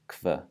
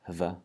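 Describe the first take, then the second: First: It begins with a hard k sound. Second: It begins with a breathy h sound. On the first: The speaker calls it right. "it's pronounced kv with the K V sound" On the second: The speaker calls it wrong. "The H V combination is not pronounced hv"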